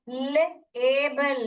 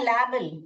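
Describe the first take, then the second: First: The first vowel is long, like 'lay'. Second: The first vowel is short, like 'lab'. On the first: The speaker calls it right. "लेबल बोलोगे" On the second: The speaker calls it wrong. "ये बन जाएगा लैबल ... तो ये गलत होगा"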